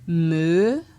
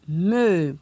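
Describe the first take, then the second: First: The syllable is said on a rising tone. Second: The syllable is said on a falling tone. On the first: "pour un ton montant" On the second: "avec un ton descendant"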